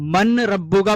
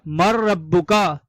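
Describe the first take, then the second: First: The n is pronounced clearly before the r. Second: The n is dropped and merged into the r. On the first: The speaker calls it wrong. "अगर हम मन रब्बू का पढ़ेंगे तो ये गलत हो जाएगा" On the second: The speaker calls it right. "मीम को रॉ से मिलाकर पढ़ा जाएगा, नून का तलफ्फुज नहीं किया जाएगा"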